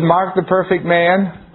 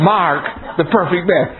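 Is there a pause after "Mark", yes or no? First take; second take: no; yes. First: It is said without a pause after Mark. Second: There is a pause after Mark.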